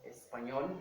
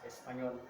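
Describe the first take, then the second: First: The middle consonant is a ny sound. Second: The middle consonant is a plain n. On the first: The speaker calls it right. "That's why we talk about Espanol" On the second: The speaker calls it wrong. "but not Espanol"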